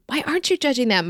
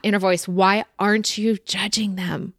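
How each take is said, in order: First: "Why aren't you judging them" pitched much higher, pressing; higher pleading repeat. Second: Said in the usual way. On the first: Shown as a demonstration. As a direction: press the question again, higher. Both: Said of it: "ask why not".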